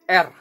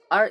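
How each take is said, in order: First: The letter is named with an Indonesian pronunciation. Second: The letter is named with an English pronunciation. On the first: "in Indonesian adalah R" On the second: "R in Indonesian"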